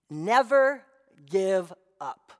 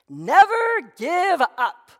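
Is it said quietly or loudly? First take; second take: quietly; loudly. First: It is said at a normal, quieter volume. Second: It is said louder, more forcefully.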